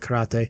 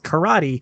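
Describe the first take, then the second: First: It is said with a Japanese-style pronunciation. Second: It is said with an American English pronunciation. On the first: "when I'm around Japanese people for a long time, sometimes I revert back to the karate" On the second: "I have the very American"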